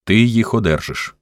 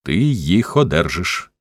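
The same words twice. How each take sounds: First: Firm, slightly higher-pitched assurance; narrated first insistence, at normal pace; firm promise. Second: Slow, decisive insistence; measured, no-argument promise; resolute repetition. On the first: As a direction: state it as settled. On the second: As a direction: cut in and spell it out slowly, firmly. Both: A narrator's reading. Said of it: "рішуче повторив Харлан".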